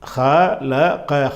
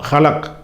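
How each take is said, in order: First: The word ends with a short final vowel. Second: The word ends on a consonant, vowel dropped. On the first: The reading continues without stopping. "தொடர்ச்சியாக படிச்சுக்கிட்டு போனீங்கன்னு சொன்னால் ஹலக்கண்டு வாசிக்கணும்" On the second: The reader stops at the end of the verse. "தனியாக மூச்சு விட்டுட்டு தனியாக படிக்கிறீங்கன்னு சொன்னால்"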